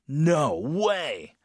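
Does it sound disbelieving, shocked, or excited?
shocked. It sounds shocked and very strong.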